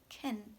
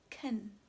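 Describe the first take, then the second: First: The vowel is reduced to a weak schwa. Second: The same.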